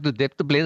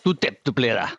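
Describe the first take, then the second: First: It sounds friendly and joking. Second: It sounds somewhat aggressive.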